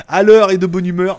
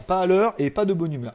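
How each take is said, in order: First: Cheerful catchphrase. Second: Grumpy catchphrase. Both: Shown as a demonstration.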